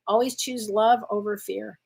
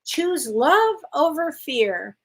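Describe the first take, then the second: First: Said in the usual way. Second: Slow, deliberate reading of the card's message, each word weighed. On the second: Shown as a demonstration. Reading the card to Amy, slow and deliberate. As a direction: let every word land, slowly. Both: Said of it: "Here we go".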